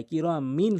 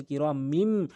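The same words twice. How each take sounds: First: "কিরামিন" ending in n; original noon sound. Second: "কিরামিম" ending in a hummed m; correct meem sound. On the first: Teacher gives learners the written form, "কিরামিন" with final n. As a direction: finish "কিরামিন" on a tongue-tip N. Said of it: "আমরা বলছি কিরামিম". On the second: Teacher shows learners correct pronunciation, "কিরামিম" with final m. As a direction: close the lips and hum the final M of "কিরামিম". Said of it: "সঠিক উচ্চারণ". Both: Shown as a demonstration.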